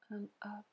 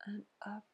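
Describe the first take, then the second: No difference in how they are said.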